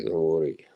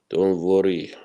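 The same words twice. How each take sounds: First: Said in the usual way. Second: A hushed reassurance; whispered. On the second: Shown as a demonstration. Reassuring chat about the absent friend, in a whisper. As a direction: whisper Don't worry with no voice.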